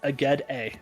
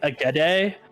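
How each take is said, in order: First: The D sound stays apart from the A. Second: The D sound runs into the following A. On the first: The speaker calls it right. "The D doesn't even bleed into the A" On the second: The speaker calls it wrong. "not like"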